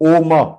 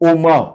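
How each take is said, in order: Both takes have the same delivery.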